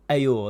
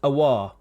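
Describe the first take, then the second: First: The name is pronounced like 'Ayour'. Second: The name is pronounced like 'Aouar'. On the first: The speaker calls it wrong. "It's not Ayour, that's that's in the past" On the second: The speaker calls it right. "We'll go with Houssem Aouar"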